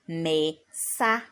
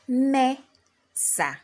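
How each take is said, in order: First: The stress is on the second syllable. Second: The stress is on the first syllable. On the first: The speaker calls it wrong. "and not" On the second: The speaker calls it right. "I raise my voice at me and then I lower my voice at sa"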